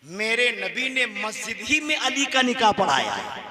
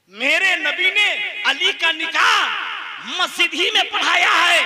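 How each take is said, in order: First: Said in the usual way. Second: High, shouted proclamation; fiery pulpit cry; full-force repeat. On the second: Real, not acted. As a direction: declare it loudly to the whole gathering. Preacher repeats statement at full force.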